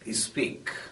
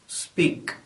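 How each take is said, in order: First: A short vowel is added before the s sound. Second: The word starts directly with the s sound.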